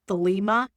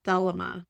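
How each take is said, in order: First: "Thelema" as thuh-LEE-muh, stressed on the middle syllable; corrected pronunciation. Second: "Thelema" as THEL-uh-muh, stress on the first syllable; mispronounced Thelema. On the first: Shown as a demonstration. Host correcting himself for listeners, "Thelema" pronounced carefully as thuh-LEE-muh. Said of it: "I think is how it's pronounced". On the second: Real, not acted. Host stumbling over an unfamiliar religion's name, "Thelema" mispronounced as THEL-uh-muh. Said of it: "I'm probably really mispronouncing that".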